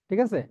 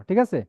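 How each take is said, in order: No difference in how they are said.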